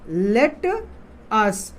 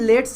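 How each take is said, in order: First: It is said as two separate full words. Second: It is said as one contracted syllable. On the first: "इसी का full form होता है" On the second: "short form में है, contract रूप में है लेट्स"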